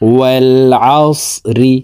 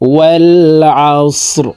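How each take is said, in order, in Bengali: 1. শেষ শব্দটি ছোট 'i' স্বরে শেষ হয়। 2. শেষ শব্দটি কোনো স্বর ছাড়া 'r' ব্যঞ্জনে শেষ হয়। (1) "ওয়াল আস রজের রি" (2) "রকে ওয়াকফের ক্ষেত্রে সাকিন করে ফেলবো, তো শব্দটি এইভাবে পড়তে হবে।"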